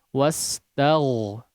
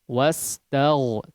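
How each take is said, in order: The two takes are said the same way.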